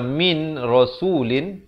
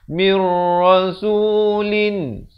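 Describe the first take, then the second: First: The n is heard before the r. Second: The n merges fully into the r. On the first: "Asalnya min rasulin" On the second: "jadi mir terus masuk nun nun ini seakan-akan tidak ada"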